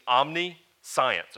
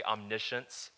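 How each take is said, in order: First: "omniscience" said slowly as "omni-science"; split-word pronunciation. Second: Said in the usual way. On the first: Shown as a demonstration. Preacher showing the congregation what the word is made of, "omniscience" as "omni-SCIENCE". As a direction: break "omniscience" into OM-nee, then SCIENCE like the school subject. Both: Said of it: "It's not how it's pronounced".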